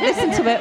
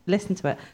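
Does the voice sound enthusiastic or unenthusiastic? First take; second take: enthusiastic; unenthusiastic. First: It is said brightly, with clear enthusiasm. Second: It is said flatly, without enthusiasm. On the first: The speaker calls it right. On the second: The speaker calls it wrong.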